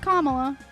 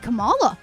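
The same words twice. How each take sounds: First: The name begins like 'comma' plus 'la'. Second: The name does not begin like 'comma'. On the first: The speaker calls it right. "the word comma with la" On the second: The speaker calls it wrong. "It could be Kamala. Well, it could, but it's not"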